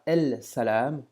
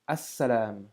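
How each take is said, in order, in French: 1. Le L de l'article se prononce devant le s. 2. Le L disparaît et le s est doublé. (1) "on ne dira pas" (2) "on accentue comme si on avait une shadda"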